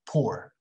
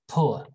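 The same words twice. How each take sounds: First: It is said in an American accent. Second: It is said in a British accent. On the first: "American is poor" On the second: "British people say poor"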